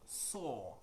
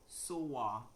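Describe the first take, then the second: First: The vowel is a long 'aw' sound. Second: The vowel is not a long 'aw' sound. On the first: The speaker calls it right. "should be pronounced or, like the long or" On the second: The speaker calls it wrong. "naturally they would go Soa"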